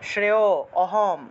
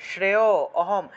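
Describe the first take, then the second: The two takes are said the same way.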